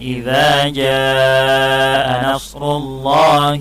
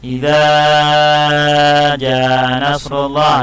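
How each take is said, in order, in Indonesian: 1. Vokal di jaa dibaca lebih panjang daripada idza. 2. Vokal di idza dibaca lebih panjang daripada jaa. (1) "Idza itu panjangnya dua harokat" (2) "lebih panjang pula idzanya daripada ja-nya"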